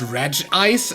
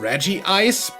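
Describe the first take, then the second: First: One syllable, 'redge', comes before 'ice'. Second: Two syllables, 'reggie', come before 'ice'. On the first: The speaker calls it wrong. "a lot of people pronounce this Reg Ice" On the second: The speaker calls it right. "Reggie Ice is the correct pronunciation"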